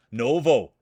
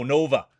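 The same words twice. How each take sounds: First: "Novo" said with a final "oh" sound, the correct name; "Novo" ending in "oh", the fixed version. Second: "Nova" said with a final "uh" sound, the mistaken name; "Nova" ending in "uh", which gets corrected; wrong name. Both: Shown as a demonstration. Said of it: "My apologies".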